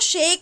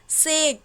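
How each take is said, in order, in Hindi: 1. शब्द sh ध्वनि से शुरू होता है। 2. शब्द s ध्वनि से शुरू होता है। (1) "इसको शेक नहीं" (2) "इसकी जो प्रोनाउंसिएशन होगी वो स की होगी, ना कि श की"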